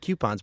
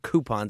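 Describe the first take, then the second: First: The word begins with a 'kyoo' sound, like Cupid. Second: The word begins with a plain 'koo' sound. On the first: "would be like if it was Cupid" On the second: "I've always heard coupons"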